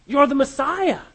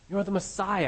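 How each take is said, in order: First: Louder and higher, stress on are; emphatic declaration. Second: Said in the usual way. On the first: Shown as a demonstration. Preacher proclaiming Peter's confession, loud and emphatic.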